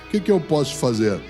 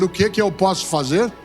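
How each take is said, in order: First: It sounds discouraged and weak. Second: It sounds willing and ready to help.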